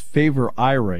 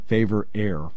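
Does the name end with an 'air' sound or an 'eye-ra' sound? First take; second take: eye-ra; air. First: The name ends with an 'eye-ra' sound. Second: The name ends with an 'air' sound. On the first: The speaker calls it right. "it's favor IRA" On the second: The speaker calls it wrong. "it's not favor air"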